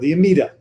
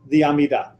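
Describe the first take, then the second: First: It is said with an American accent. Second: It is said without an American accent.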